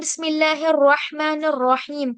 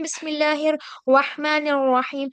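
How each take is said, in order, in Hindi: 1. र की आवाज़ साफ़ और अलग सुनाई देती है। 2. र की आवाज़ व की तरफ़ धुंधली हो जाती है। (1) "तो उसमें र जो है बिल्कुल क्लियर होना चाहिए।" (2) "तो र समझ नहीं आ रहा है कि ये र बल पढ़ रहे हैं या फिर हम वाव को पढ़ रहे हैं।"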